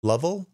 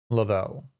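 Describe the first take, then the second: First: "Lovell" as LUV-ul, higher and questioning; trying a pronunciation. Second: "Lovell" as luh-VELL, with a falling end; trying another pronunciation. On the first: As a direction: stress the first syllable of "Lovell". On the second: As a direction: stress the second syllable of "Lovell". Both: Shown as a demonstration. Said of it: "how would you pronounce that".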